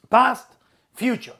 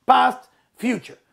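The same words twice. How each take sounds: The two takes are said the same way.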